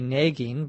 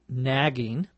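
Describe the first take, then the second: First: It is said with a Minnesota regional accent. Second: It is said with a more standard American accent. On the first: "in my dialect in Minnesota, here in the United States, I say nagging" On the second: "the more standard pronunciation is probably nagging"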